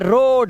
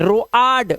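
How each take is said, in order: First: The vowel is a single long o sound. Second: The vowel is split into o then a. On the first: The speaker calls it right. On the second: The speaker calls it wrong.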